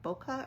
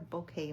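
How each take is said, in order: First: The word ends in a short 'keh' sound. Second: The word ends like 'kay', as in bouquet. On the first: "is it bokeh or bouquet" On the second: "I've always heard it as bouquet"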